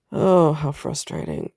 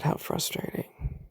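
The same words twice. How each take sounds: First: Said in the usual way. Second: Breathy whisper, much softer; whispered frustration. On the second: Real, not acted. Woman at her doctor's verdict, whispered frustration. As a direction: whisper it to yourself in exasperation. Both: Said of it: "repeated, then whispered".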